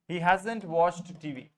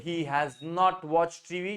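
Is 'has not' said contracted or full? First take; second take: contracted; full. First: Has not is squeezed into one short word. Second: Has not is said as two full words. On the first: "तो हैज नॉट को हैजंट बोलना।" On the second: "Very good"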